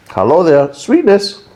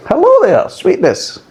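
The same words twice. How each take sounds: First: Sing-song high "Hello there, sweetness"; teasing high-pitched hello to the sweetness; mock greeting. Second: Very high squeaky "Hello there, sweetness"; hammed-up squeaky greeting to the sweetness; mock greeting. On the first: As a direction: greet the flavour like a cheeky cartoon. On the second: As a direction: squeal a hello at the sugary flavour.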